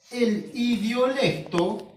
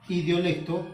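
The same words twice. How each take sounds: First: "idiolecto" drawn out slowly and lifted higher, each syllable spaced; emphatic new term. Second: Said in the usual way. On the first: Shown as a demonstration. Teacher presenting the new term to his students, slow and emphatic. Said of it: "teacher introducing key term slowly". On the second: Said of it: "quick repeat of the term".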